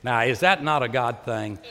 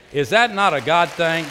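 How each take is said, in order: First: Said in the usual way. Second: Louder repeated question. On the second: Real, not acted. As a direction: raise it higher and louder the second time. Preacher repeats rhetorical question louder.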